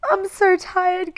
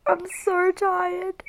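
First: Louder tearful cry, high and slow; real sobbing. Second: Slow, tearful, high and strained; real crying. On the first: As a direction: let the sob burst out on the repeat. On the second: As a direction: drag it out through tears. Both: Real, not acted. Crying about her mother.

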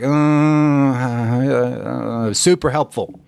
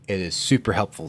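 First: Stammering "Uh, uh, uh" before a half-hearted "super helpful"; mock hesitant. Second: Said in the usual way. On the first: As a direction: drag out the "Uh, uh" as if unconvinced, then "super helpful". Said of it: "So if you're like". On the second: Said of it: "I can tell you".

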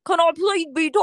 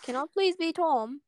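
First: Louder, hammed-up wandering British accent; muddled accent. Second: Lightly attempted British accent; put-on accent. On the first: Friend retrying her plea to be Tom, muddled British accent. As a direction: overdo a fake accent that goes astray. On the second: Friend asking to play Tom, wandering British accent. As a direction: plead in a shaky attempt at British. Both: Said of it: "what is this accent?".

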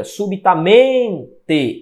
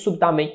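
First: Slow "subitamente" with a long, strong MEN; stress on MEN in SUBITAMENTE. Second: Said in the usual way. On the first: Shown as a demonstration. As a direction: draw out "subitamente", landing on MEN. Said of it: "Esse men". ("subitamente" devagar, com ênfase na sílaba MEN)

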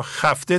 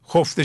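First: خفته said as "xæfte" with an open first vowel; خفته pronounced xæfte; one way to say it. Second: خفته said as "xofte" with a rounded first vowel; خفته pronounced xofte; the better way. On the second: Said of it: "خفته شاید بهتره". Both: Shown as a demonstration.

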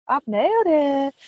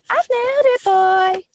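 First: Playful boasting. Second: Triumphant crowing. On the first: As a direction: crow about it, still held back. Host celebrates, first quieter take. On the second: Host boasting of success, high triumphant crowing. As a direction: belt out the victory in a high voice. Host celebrates, second bigger take. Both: Pretend.

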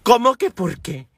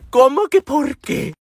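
First: Said in the usual way. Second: "¿Cómo que por qué?" repeated slower, higher and louder; slow, high, spaced-out "¿Cómo que por qué?"; incredulous emphasis. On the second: Real, not acted. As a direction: hammer the disbelief home.

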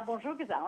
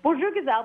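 First: Bonjour Gazelle dropped much softer, like a fading echo; softer echo of the call. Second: A light singsong call of Bonjour Gazelle, a little higher; mock street call. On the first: Retold or imitated. The street call repeated to her friend, fading and soft. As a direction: let the second bonjour Gazelle trail away softly. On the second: Imitating Moroccan street vendors greeting a Western woman, mild call. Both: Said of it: "calling out and saying".

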